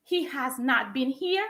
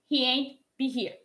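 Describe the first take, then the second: First: Said in the usual way. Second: He ain't be here with ain't as one syllable; contracted ain't. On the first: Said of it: "En vez de decir". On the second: Shown as a demonstration. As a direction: swap has not for ain't, said casually. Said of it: "voy a decir".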